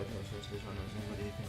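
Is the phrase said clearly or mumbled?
mumbled. The words are mumbled quietly and indistinctly.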